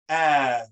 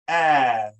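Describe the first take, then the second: First: The vowel sounds like the a in apple. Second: The vowel sounds like the a in apple.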